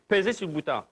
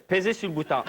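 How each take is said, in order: Both takes have the same delivery.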